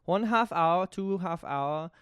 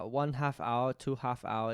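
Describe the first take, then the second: First: Hammed-up German accent, slowing on the second phrase; German accent attempt. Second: Tentative, low-key German accent; trying out a German accent under your breath; German accent attempt. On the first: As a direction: punch up the bad German accent, then draw it out. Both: Shown as a demonstration. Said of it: "how do you do a German accent?".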